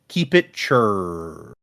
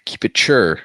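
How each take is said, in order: First: "chur" stretched into one very long R; drawn-out R. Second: "chur" said shorter, rhyming with sure; puzzled echo. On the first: Real, not acted. Host puzzling over a Kiwi sign-off, drawn-out R. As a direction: drag "chur" out slowly on the R. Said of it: "a lot of R's in that word". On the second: Retold or imitated. Co-host asking what it means, echoed pronunciation. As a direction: repeat "chur" briskly without stretching the R.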